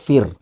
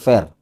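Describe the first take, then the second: First: The vowel sounds like in 'fear'. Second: The vowel sounds like in 'fair'. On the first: The speaker calls it right. "Nama saya itu [name]" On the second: The speaker calls it wrong. "bukan Fair"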